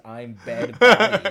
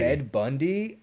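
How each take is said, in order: First: Slow, loud, laughing through "I'm Bed Bundy"; laughing misquote. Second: "Bundy?" rising, a touch higher, in disbelief; surprised question. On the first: Retold or imitated. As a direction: crack up while quoting your old mishearing. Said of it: "I always thought it was". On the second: Real, not acted. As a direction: echo "Bed Bundy?" back, caught off guard.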